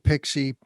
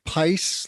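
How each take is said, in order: First: It is said as the word 'pixie'. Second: It sounds like 'spice' without the s. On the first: The speaker calls it wrong. "I slaughtered the pronunciation" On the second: The speaker calls it right. "it's pronounced Pice, like spice with no S on the front"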